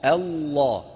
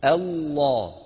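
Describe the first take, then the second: The two takes are said the same way.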